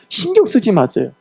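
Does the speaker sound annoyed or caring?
caring. It is said in a warm, reassuring tone. The person wants attention given to others instead. The speaker calls it right.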